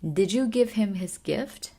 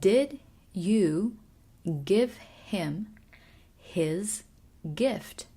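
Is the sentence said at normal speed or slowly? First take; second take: normal; slow. First: The sentence is said at normal speed. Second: The sentence is said slowly and carefully.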